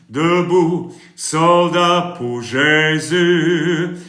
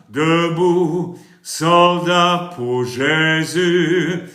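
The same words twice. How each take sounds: The two takes are said the same way.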